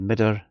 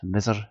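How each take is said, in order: First: The middle consonant is a d sound. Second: The middle consonant is a th sound. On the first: The speaker is from Shetland. "if you're for ken Shetland" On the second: The speaker is from the south. "If you're for uh, south"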